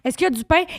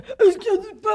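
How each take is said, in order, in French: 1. C'est dit avec un accent québécois. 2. C'est dit avec un accent marseillais. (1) "on demandait genre" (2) "Il servirait puis il faisait"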